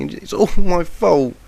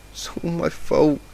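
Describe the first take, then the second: First: High, loud and slow, leaning on my; anguished scream. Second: "It's all my fault" said slow and worn out, mumbled after the crying; a tired, broken mumble of "It's all my fault"; mumbled through sobs. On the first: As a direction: cry "and it's all my fault" out as a loud, slow, high wail. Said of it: "the yellow Pegasus screamed". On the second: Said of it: "Mumbles of". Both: A narrator's reading.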